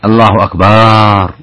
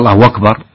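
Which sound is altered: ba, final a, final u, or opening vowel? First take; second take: ba; final u. First: The vowel after the b is lengthened. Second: The final r carries a long u vowel. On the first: It turns the word into drums. "أو مد الباء" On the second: The meaning is unchanged. "أشبع اللي أتى بواو"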